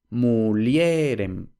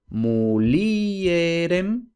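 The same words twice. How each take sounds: First: Mulierem said as three syllables, mu-lje-rem, with the stress on the e; Vulgar Latin diphthong. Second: Mulierem said slowly as four syllables, mu-li-e-rem, with the i and e apart; Latin hiatus. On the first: Teacher showing the Vulgar Latin form with a diphthong. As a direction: glide the i into the e in mulierem, muljérem. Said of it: "Entonces pasamos a mulierem". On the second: Teacher showing the classical Latin form with the i and e apart. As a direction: separate the i from the e in mulierem. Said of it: "vemos que está separada de la siguiente vocal".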